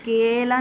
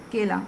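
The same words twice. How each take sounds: First: केला with the vowels stretched too long; mock the wrong, drawn-out केला. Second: केला said quick, both vowels short; crisp short केला with no stretching. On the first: Teacher shows children the wrong long केला. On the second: Teacher gives children the correct short केला. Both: Shown as a demonstration. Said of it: "केला नहीं बोल रही हूँ मैं".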